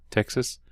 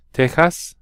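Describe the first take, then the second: First: Said in the usual way. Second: Texas said the Spanish way, with a throaty j sound; Tejas, the Spanish way. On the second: Shown as a demonstration.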